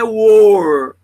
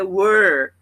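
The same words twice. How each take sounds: First: The vowel is unlike the vowel in 'the'. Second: The vowel is like the vowel in 'the'. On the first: The speaker calls it wrong. "não é were" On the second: The speaker calls it right. "É were. É aquele som do the"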